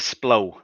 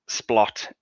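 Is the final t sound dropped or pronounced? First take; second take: dropped; pronounced. First: The word ends without a final t sound. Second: The word ends with a clear t sound. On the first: The speaker calls it wrong. "that is the posh name" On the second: The speaker calls it right. "They even put an extra T on it to make sure"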